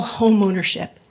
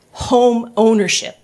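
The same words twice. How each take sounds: First: Said in the usual way. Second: "Home ownership" said slowly, each word weighted; stress on HOME OWNERSHIP. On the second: Real, not acted. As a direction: hit "Home ownership" slow and firm. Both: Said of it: "I stress that word".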